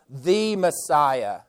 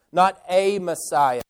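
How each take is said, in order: First: "the" drawn out as "thee"; weighted "thee" before "Messiah"; stress on THE. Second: "a" said as a full "ay"; single out "a" as the word being rejected; weighted "ay" before "Messiah"; stress on A. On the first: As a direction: slowly mark "the" as the one and only. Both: Shown as a demonstration. Contrasting the one with any one.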